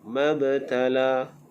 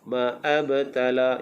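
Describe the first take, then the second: First: The words join smoothly with no break after 'ma'. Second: A glottal catch and extra vowel follow 'ma'. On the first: The speaker calls it right. "Macam tu" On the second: The speaker calls it wrong. "jangan baca ma'abtala, itu tak kena"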